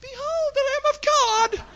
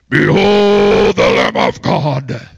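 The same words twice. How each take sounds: First: It is said in a high voice. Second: It is said in a deep, booming voice.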